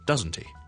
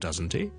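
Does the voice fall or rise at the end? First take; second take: fall; rise. First: The pitch falls at the end. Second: The pitch rises at the end. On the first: The speaker already knows the answer. "我已经知道答案了" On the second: The speaker is somewhat doubtful. "那就会上升，就有少少疑问的意思了"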